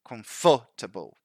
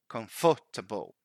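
First: The stress falls on a later syllable. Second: The same.

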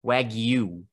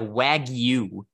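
First: The g is followed by a clear y sound. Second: The same.

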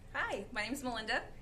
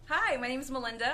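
First: It is said in a plain, ordinary way. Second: It is said in a dramatic, excited way.

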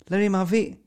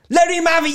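First: It is said in a calm, plain tone. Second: It is said in an aggressive, urging tone. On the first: It asks someone to hand over the gun. The speaker calls it right. "It was, let him have it. Just give him the gun back" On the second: It urges someone to shoot. The speaker calls it wrong.

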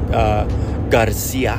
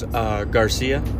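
First: The name is said with a Spanish accent. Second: The name is said with an English accent.

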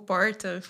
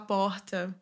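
First: It is said with her natural goiano R. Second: The R is changed to hide the goiano accent.

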